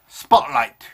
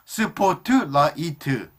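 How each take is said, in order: First: It is said as two syllables. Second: It is said as six separate, evenly paced syllables. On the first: "spotlight is a two-syllable word" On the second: "We use six syllables. ... clearly pronounce all the syllables"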